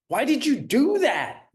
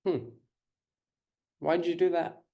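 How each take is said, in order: First: High, loud accusing demand; accusing question. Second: Gentle curious question. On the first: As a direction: fire it like a scolding parent. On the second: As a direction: ask kindly to understand. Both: Shown as a demonstration. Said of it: "there's a difference between".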